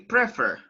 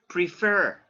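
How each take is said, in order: First: The stress is on the first syllable. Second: The stress is on the second syllable. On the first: The speaker calls it wrong. "So you don't say prefer" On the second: The speaker calls it right. "the stress goes on the second syllable"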